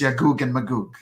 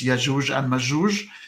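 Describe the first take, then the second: First: The names are said with a hard g sound. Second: The names are said with a j sound. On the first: This is the Egyptian dialect form. "if you're um, Egyptian like me" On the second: This is the North African or Levantine dialect form. "if you're from um, the area of North uh, Africa uh, or the Syria, Lebanon"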